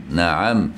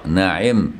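First: نعم said naʕam, the ayn with a fatha a. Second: نعم said naʕim, the ayn with a kasra i. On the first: Teacher to students, showing نعم with fatha on the ayn. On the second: Teacher to students, showing نعم with kasra on the ayn. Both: Shown as a demonstration. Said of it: "بكسر العين وفتحها".

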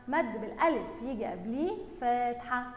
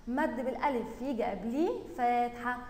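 Both takes have the same delivery.

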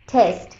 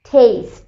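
First: "টেস্ট" as "tehst", low and falling; short e vowel. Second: "টেস্ট" as "tayst", falling; long ei vowel. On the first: Teacher blending the sounds just shown, "টেস্ট" as a low "tehst". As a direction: say "টেস্ট" like "test", no glide. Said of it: "এস্ট". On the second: Teacher blending the sounds just shown, "টেস্ট" as "tayst". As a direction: say "টেস্ট" like "taste", gliding through "ey". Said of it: "এই, স, ঠ". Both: Shown as a demonstration.

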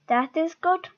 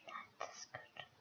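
First: Said in the usual way. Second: Breathy whispered aside. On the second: Pretend. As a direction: say it again under your breath. Whispered repeat after loud take.

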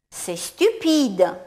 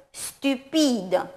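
First: Stupide slow, French u, falling; slow model sentence. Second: Said in the usual way. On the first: Shown as a demonstration. Teacher reads practice phrase for learners, slow. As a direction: read C'est stupide slowly for repetition. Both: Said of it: "Je lis chaque proposition".

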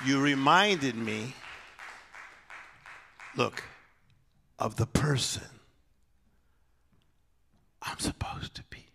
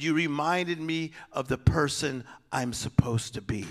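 First: Softer and softer until a bare whisper; fading to a whisper. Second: Quiet retold quote. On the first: Shown as a demonstration. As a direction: let the line die down to a whisper. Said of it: "repeats the line softly". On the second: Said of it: "she said".

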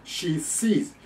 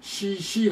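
First: She sees with "sh" then clean "s"; distinct sh and s. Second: Higher, both words She、she as long "shee"; mistaken "sh sh". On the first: Shown as a demonstration. Teacher showing the hard contrast, "sh" in She, "s" in sees. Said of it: "がなかなか弱い人". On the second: Retold or imitated. Teacher mocking the slip, She、she both with "sh". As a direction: use the same "sh" twice in She、she. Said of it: "だったら、おしっこだったらいい".

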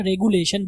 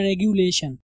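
First: "रेगुलेशन" with plain goo, re-goo-lay-shan; common mispronunciation. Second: "रेगुलेशन" with gyu, re-gyu-lay-shan; corrected regulation. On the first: Teacher shows how people often read it, mispronounced "रेगुलेशन". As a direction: say "रेगुलेशन" without a y-glide after g. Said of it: "अक्सर लोग इसको क्या पढ़ते हैं". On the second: Teacher corrects the common reading, careful "रेगुलेशन". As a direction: say "रेगुलेशन" slowly, with a y-glide after g. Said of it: "but ये रेगुलेशन". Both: Shown as a demonstration.

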